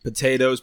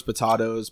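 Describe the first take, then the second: First: "Potatoes" as puh-TAY-toes; long "ay" in the middle of "Potatoes"; long-A pronunciation. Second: "potatoes" as puh-TAH-toes; ah pronunciation. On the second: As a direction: open "ah" in the middle of "potatoes". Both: Shown as a demonstration. Pronunciation variants contrasted.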